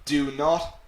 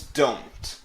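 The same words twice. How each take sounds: First: "Do not" as two separate full words; uncontracted form. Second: "don't" merged into one syllable; contracted form. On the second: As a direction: run do and not together as "don't". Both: Shown as a demonstration.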